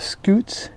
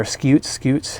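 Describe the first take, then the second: First: "scutes" said as skoots; "scutes" rhyming with boots; pronunciation variant. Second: "scutes" said as skyoots; "scutes" rhyming with cutes; pronunciation variant. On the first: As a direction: say "scutes" with a plain oo vowel, skoots. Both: Shown as a demonstration. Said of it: "however you wanna pronounce that".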